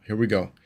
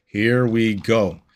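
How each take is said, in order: First: Said in the usual way. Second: Slow, drawn-out hype voice; dramatic slow announcement. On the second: Pretend. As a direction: build it up like a big boss fight. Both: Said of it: "same words said again differently".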